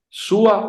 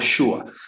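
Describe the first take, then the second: First: It begins with a soft plain 's' sound. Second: It begins with a 'sh' sound. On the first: "con S suave" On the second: "con Shin"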